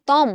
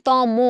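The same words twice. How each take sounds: First: তম said "tom", no final vowel; clipped-ending option. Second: তম said "to-mo", final o held; o-ending option. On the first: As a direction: end তম on the m. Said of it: "তমটাকে একটু উচ্চারণ করো তো". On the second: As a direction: stretch তম into two syllables. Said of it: "আমরা সবাই বলি তম". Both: Shown as a demonstration.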